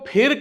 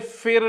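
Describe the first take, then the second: First: The word begins with an aspirated p sound. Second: The word begins with an f sound. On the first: The speaker calls it right. "फिर कहिए, इसके नीचे बिंदी नहीं है" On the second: The speaker calls it wrong. "फिर ना कहिए, ये गलत है"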